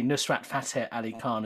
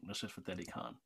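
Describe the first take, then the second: First: the name with English vowels; English pronunciation. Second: Low, soft South Asian accent. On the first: Guest showing how it sounds wrong, anglicised pronunciation. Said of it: "as we would in English". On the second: Guest demonstrating the proper name, soft South Asian accent. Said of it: "say it with the accent". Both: Shown as a demonstration.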